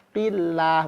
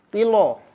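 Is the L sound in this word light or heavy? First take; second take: light; heavy. First: The L sound is light and thin. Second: The L sound is heavy and thick. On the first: The speaker calls it right. "dibacanya jadi tipis" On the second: The speaker calls it wrong.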